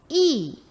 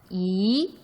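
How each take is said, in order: First: The pitch falls sharply from high to low. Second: The pitch rises from middle to high. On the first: "이렇게 사성이 되고" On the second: "이렇게 올라간다"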